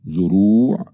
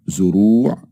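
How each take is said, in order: The two takes are said the same way.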